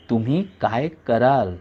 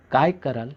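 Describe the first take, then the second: First: Slow, weight on तुम्ही; stress on तुम्ही. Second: Said in the usual way. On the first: A narrator's reading. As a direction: lean on तुम्ही, draw it out. Narrator repeats question, slower. (तुम्ही वर जोर, सावकाश)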